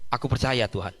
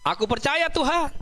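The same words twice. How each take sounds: First: It is said at a normal, quieter volume. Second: It is said loudly, like a shout.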